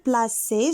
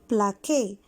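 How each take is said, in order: First: The middle consonant is a soft s sound. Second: The middle consonant is a hard k sound. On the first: The speaker calls it right. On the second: The speaker calls it wrong.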